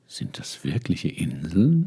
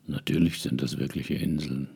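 First: Slow, wondering question rising at the end; slow rising tune on "Inseln"; questioning rise. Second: "Natürlich" stressed, a falling statement; matter-of-fact answer. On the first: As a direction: ask it as a puzzled boy. Prince asks stranger, rising question. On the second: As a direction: lower and softer, falling firmly on "Inseln". Man in tailcoat answers flatly. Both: Acted.

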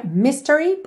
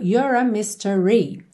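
First: "mystery" as "MYS-te-ry"; first-syllable stress. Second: "mystery" slow, last syllable held; long last note. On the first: Teacher shows normal spoken form, stress on first syllable. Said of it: "a sílaba tônica é a primeira". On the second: Teacher fits the word to the melody, lengthened ending. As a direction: stretch the "ree" of "mystery". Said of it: "última nota acaba sendo um pouquinho mais longa". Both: Shown as a demonstration.

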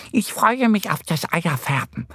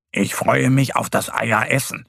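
First: High-pitched duck character voice; eager little duck. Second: Lightly voiced bear, close to narrator; little bear. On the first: Annie the duck anticipating egg dyeing, eager. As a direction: look forward to it in a high duck voice. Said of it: "sagt Annie". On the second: Mo the bear anticipating eating eggs, relishing. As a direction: relish it as a small, hungry bear. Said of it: "sagt Mo und schmatzt". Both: A narrator's reading.

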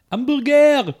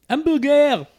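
No difference in how they are said.

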